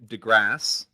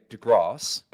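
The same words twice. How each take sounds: First: The name is said with an American pronunciation. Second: The name is said with a British pronunciation. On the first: "pronunciation DeGrasse" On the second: "or in U K"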